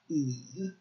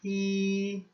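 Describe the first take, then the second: First: The pitch dips low, then rises slightly. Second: The pitch stays high and level throughout. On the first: "it's a down, and then it kind of growls up" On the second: "just a high, even tone"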